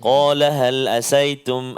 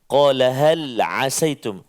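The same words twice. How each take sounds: First: The word starts with a plain glottal stop. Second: The word starts with a throaty 'ain' sound. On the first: The speaker calls it wrong. "Dia baca dengan hamzah" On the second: The speaker calls it right. "dengan huruf ha, ain"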